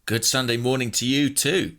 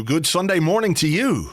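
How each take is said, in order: First: Churchy response. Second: Churchy greeting. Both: Pretend. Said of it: "That's how they say it in church".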